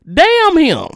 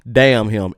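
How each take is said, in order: First: Damn him, shouted high and loud; high furious damn him. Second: Said in the usual way. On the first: Real, not acted. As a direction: curse him out at the top of the voice. Angry rant cursing him.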